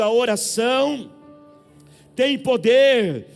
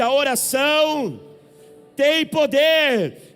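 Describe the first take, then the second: First: It is said at normal loudness. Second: It is said louder.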